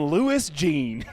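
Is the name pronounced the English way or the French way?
English. The name is pronounced with English sounds. This is how the name is actually said. "but nope. I'm"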